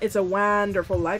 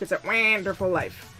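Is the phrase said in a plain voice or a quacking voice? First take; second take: plain; quacking. First: It is said in an ordinary voice. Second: It is said with a duck-like quack. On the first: The speaker calls it wrong. "It's not" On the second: The speaker calls it right. "you have to pronounce it with a quack"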